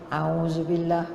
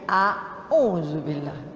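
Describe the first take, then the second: First: The opening vowels glide together as one sound. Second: The opening vowels are said as two separate sounds. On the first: The speaker calls it wrong. "Kan kita banyak auzubillah minas" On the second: The speaker calls it right.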